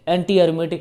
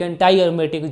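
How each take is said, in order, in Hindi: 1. शब्द anti का अंत ee ध्वनि से होता है। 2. शब्द anti का अंत eye ध्वनि से होता है।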